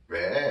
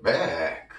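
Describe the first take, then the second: First: "back" with the vowel stretched as if said twice; doubled-vowel demo. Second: "back" quicker, vowel still slightly long; quicker demo. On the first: Teacher models back for learners, doubled-vowel demo. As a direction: dip and come back up through the long vowel of "back". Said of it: "마치 L을 두 번 발음하는 것 같아요". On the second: Teacher shows the fast form, quicker demo. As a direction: say "back" more briskly in one glide. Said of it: "빨리 발음해도". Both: Shown as a demonstration.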